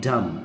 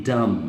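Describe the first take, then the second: First: The final b is silent. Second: The same.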